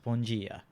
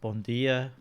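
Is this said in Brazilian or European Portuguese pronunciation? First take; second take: Brazilian; European. First: It is said with a Brazilian Portuguese pronunciation. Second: It is said with a European Portuguese pronunciation. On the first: "where Brazilian is" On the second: "which is how they pronounce good morning"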